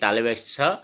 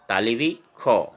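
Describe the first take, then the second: First: The consonant is said as an s sound. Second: The consonant is said as a kh sound. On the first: This is how it is said in Hindi. "जैसे कि हम हिंदी में कहेंगे तालवे स" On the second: This is how it is said in Assamese. "असमिया में इस स का उच्चारण हमेशा तालवी खो"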